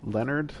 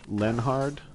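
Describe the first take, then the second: First: The name is said with no H sound. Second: The name is said with an H sound.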